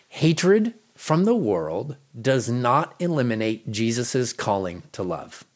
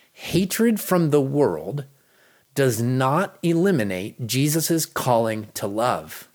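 Both takes have the same delivery.

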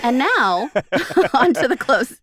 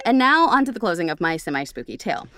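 First: Loud, grand announcer read with laughs; mock announcer. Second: Said in the usual way. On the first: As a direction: announce the finale like a host.

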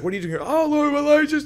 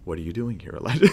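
First: High, frantic mock agitation; shaking someone up. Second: Sober voice that demands his attention; really serious. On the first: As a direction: blurt it out as if shaking him hard. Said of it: "he's shaking him up". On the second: Acted. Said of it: "in a really serious way".

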